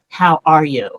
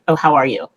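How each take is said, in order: First: It sounds genuine and caring. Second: It sounds casual and insincere.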